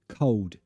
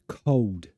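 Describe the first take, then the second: The two takes are said the same way.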